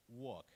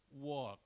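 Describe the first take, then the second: First: Walk as wawk, no l; correct silent l. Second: Walk with the l sounded; students' mispronunciation. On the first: Shown as a demonstration. Presenter models the word, silent l. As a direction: leave the l out of walk. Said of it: "L is not pronounced". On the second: Retold or imitated. Presenter imitates high school students, sounded l. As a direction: pronounce the l in walk. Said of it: "they pronounce".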